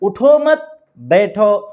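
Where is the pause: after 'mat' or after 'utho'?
after mat. There is a pause right after 'mat'. Do not stay standing, sit down. "अगर उठो मत के ऊपर वक्फा करते हैं"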